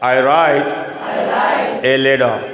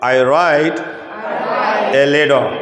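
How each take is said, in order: Both takes have the same delivery.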